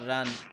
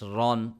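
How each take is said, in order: First: The syllable sounds thin and light. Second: The syllable sounds full and heavy. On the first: The speaker calls it wrong. "it's not run" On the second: The speaker calls it right. "It's heavy"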